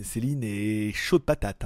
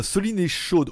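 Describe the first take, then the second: First: Céline said slowly and lower, se-lin; Céline drawn out slowly to correct it; name fixed as Céline, lower and slow. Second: Soline read with an open o, sɔ-lin; name misread as Soline. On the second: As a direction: says Soline instead of Céline. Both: Real, not acted.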